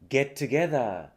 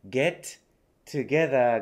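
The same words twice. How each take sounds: First: The two t sounds merge into one. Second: Both t sounds are said separately.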